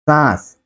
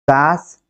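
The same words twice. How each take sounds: First: सांस with long a through the nose, falling; nasalised vowel. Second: सांस said as सास, plain long a, rising; oral vowel. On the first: Teacher reading a minimal pair, सांस with nasalised vowel. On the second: Teacher reading a minimal pair, सांस with oral vowel. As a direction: keep the a of सांस out of the nose. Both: Shown as a demonstration. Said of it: "जो अनुनासिकता यहाँ पर है".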